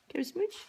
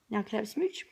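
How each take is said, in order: First: Asking again, pitched higher with a lift at the end; higher, coaxing repeat of the question; higher sing-song ask. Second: Said in the usual way. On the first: Real, not acted. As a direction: raise the pitch and sweeten the ask. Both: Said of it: "repeats the ask".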